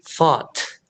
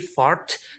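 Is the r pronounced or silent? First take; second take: silent; pronounced. First: The r is silent, British style. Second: The r is pronounced.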